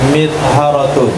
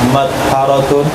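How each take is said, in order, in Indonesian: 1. Suku kata pertama memiliki vokal i. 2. Suku kata pertama memiliki vokal a. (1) "boleh juga dengan kasrah mim" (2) "dibaca dengan fathah mim"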